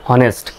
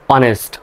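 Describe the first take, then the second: First: The word begins with an audible h sound. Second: The word begins directly with a vowel sound. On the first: The speaker calls it wrong. "হনেস্ট হওয়ার কথা তাই না" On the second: The speaker calls it right. "সঠিক উচ্চারণটা হবে অনেস্ট"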